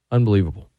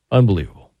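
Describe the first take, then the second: First: Said in the usual way. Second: Unbelievable said louder, in awe; loud, stunned Unbelievable; amazed exclaim. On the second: Real, not acted. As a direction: let the word burst out in amazement. Repeats the word for emphasis.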